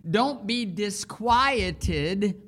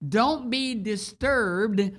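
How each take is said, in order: First: "don't" pressed, words drawn out, rising at the end; slow emphatic. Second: "Don't" stretched slowly and pressed hard; slow emphatic. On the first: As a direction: draw out "disquieted" slowly. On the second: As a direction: lean on "Don't", each word slow. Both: Shown as a demonstration. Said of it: "It means".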